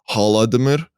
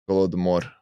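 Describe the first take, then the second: First: The word begins with an H sound. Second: The word begins with a G sound. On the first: The speaker calls it wrong. "I pronounced it wrong because it's written in English" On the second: The speaker calls it right. "it says it in Russian"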